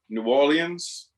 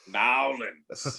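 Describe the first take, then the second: First: Orleans is said in a fuller, French-like way. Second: It is said like Nowlands, ending in -lands. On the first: "which is closest to the original French" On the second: "we want to smack you immediately"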